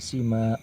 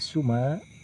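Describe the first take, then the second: First: The first vowel is an 'i' sound. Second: The first vowel is an 'u' sound. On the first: "dan kasrohnya sin" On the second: "dengan didomahkan sin"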